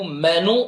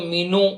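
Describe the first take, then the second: First: It has an 'eh' vowel and no 'y' glide. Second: The first vowel is a long 'ee' sound. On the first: The speaker calls it right. "That is the proper word for this list" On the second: The speaker calls it wrong. "कई लोग इसको मीनू"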